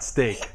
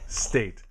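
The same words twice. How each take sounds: First: "steak" with a clear k ending; contrasting word steak. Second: "State" ending in a crisp t; correct pronunciation. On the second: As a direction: correct "State" with a clean t at the end. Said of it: "Not steak". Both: Shown as a demonstration.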